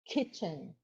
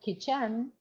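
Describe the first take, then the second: First: The stress is on the first syllable. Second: The stress is on the second syllable. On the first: The speaker calls it right. "they should know it's kitchen" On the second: The speaker calls it wrong. "not kitchen"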